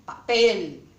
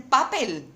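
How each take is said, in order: First: PAPEL stressed on the last syllable, pa-PEL; drawn-out, emphatic PEL at the end of PAPEL; correct final stress. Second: PAPEL stressed on the first syllable, PA-pel; misplaced stress on the PA of PAPEL; wrong first-syllable stress. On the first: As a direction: slowly stretch the PEL in PAPEL. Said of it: "La acentuación mayor es esta". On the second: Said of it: "esta no es la sílaba tónica". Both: Shown as a demonstration.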